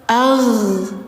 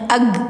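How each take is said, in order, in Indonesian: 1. Konsonan akhir dilepas dengan napas yang mengalir. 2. Konsonan akhir dihentikan dan ditahan. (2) "itu ditahan, masih keliru"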